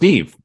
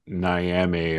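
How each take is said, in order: First: The name is said as one syllable, 'Neev'. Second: The name is said as two syllables, 'Nee-am'. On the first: The speaker calls it right. "but it's pronounced Neve" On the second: The speaker calls it wrong. "you're going to hear Niame a lot"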